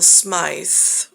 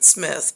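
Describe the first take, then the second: First: The vowel sounds like 'eye', as in smite. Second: The vowel sounds like 'it', as in smith. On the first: The name hides the phrase 'smite thee'. "but it's I will smite thee" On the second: This is how the bearer says his own name. "he pronounces it Smith"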